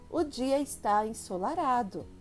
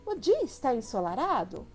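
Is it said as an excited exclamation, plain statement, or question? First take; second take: plain statement; question. First: It is a plain statement with a falling end. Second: It is asked with question intonation. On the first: It simply states a fact. "Tornei a frase afirmativa, então tem um ponto final" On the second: The speaker asks whether it is so. "Olha a entonação. Muda"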